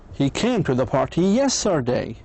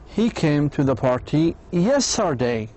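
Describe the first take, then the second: First: The word yesterday carries the strongest stress. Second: The word yesterday carries the strongest stress.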